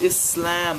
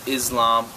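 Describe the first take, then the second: First: The s is a plain unvoiced s. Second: The s is voiced like a z. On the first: The speaker calls it right. "it's pronounced Islam. There's no letter Z in there" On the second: The speaker calls it wrong. "they'd say Islam"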